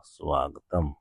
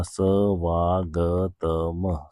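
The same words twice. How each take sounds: First: Said in the usual way. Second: सवागतम drawn out very slowly, syllable by syllable; sounded out slowly. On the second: Shown as a demonstration. Teacher sounding out the joined word for students, very slowly. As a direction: spell सवागतम out slowly for the class. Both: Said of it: "ये आ इसमें मिल गया था तो क्या बना".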